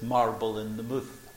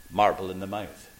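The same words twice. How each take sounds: First: "mouth" in Glaswegian, as "mooth"; broad Glasgow "mouth", rhyming with tooth; Glasgow pronunciation. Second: "mouth" in standard English, with an ow; careful standard "mouth", no Glasgow oo; translated pronunciation. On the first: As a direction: give "mouth" a long Scots oo. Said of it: "in Glasgow, we used to call this". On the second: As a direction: say "mouth" to rhyme with south, pitched lower. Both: Shown as a demonstration.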